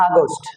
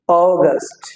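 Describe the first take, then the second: First: আগস্ট opened with a plain "aa"; everyday local August. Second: অগাস্ট opened with a long "o". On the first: Teacher quoting how we say it, আগস্ট with "aa". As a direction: say আগস্ট as "aa-gost". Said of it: "আমরা বলছি আগস্ট". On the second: Teacher showing correct August, অগাস্ট with long "o". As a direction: say অগাস্ট as "oh-gast", falling. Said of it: "ও উচ্চারণ হবে". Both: Shown as a demonstration.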